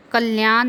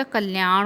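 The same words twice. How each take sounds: First: कल्याण ending in dental n; wrong pronunciation. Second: कल्याण ending in retroflex ṇ; correct pronunciation. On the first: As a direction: say कल्याण as kalyaan, tongue at the teeth. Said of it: "कल्याण नहीं होता". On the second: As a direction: say कल्याण as kalyaaṇ, tongue curled back. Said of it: "कल्याण होता है". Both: Shown as a demonstration.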